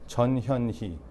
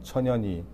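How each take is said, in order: First: The name is said at a normal, slow pace. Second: The name is said quickly, run together.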